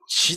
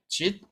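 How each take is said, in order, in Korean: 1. 이 단어는 s 소리로 끝나요. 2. 이 단어는 t 소리로 끝나요. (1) "본래는 짓, 그 십오 세기만 하더라도 지스 이렇게 읽혔습니다" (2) "지금은 짓이라고 읽지만은"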